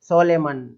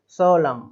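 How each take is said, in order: First: The word ends with an added n sound. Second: The word ends on an m sound. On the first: The speaker calls it wrong. "इसको किस तरीके से पढ़ते हुए देखा मैंने" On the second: The speaker calls it right. "केवल इतना ही"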